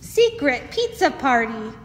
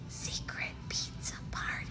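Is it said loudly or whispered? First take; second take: loudly; whispered. First: It is said loudly. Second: It is whispered.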